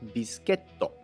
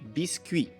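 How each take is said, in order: First: It is said with a Japanese pronunciation. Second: It is said with a French pronunciation. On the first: "in Japanese" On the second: "In French"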